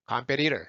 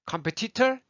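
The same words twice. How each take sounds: First: 컴페티터 lower, as "kam-pe-ri-rer"; American flaps in 컴페티터; low-breath flapped T. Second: 컴페티터 higher with puffed Ts; crisp aspirated Ts in 컴페티터; breathy full T. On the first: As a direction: tap the Ts of 컴페티터 like R. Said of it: "휴지가 움직이는 게 다르죠". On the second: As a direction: blow air through each T of 컴페티터. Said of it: "바짝 입 앞에 대고 얘기해 보세요". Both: Shown as a demonstration.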